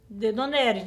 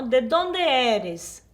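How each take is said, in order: First: Said in the usual way. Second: ¿De dónde eres? said very slowly, every syllable clear; slow model question. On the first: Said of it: "teacher repeats question normally". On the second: Shown as a demonstration. Teacher to students, modelling the question very slowly. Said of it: "teacher models question for class".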